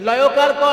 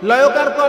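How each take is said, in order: Both takes have the same delivery.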